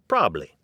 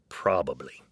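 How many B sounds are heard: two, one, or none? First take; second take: one; two. First: One B sound is dropped. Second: Both B sounds are pronounced. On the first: "ditch at least one B and say" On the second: "Then there's"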